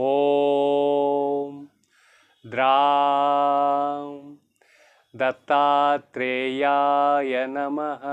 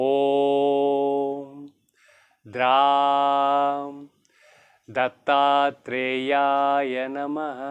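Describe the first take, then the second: Both takes have the same delivery.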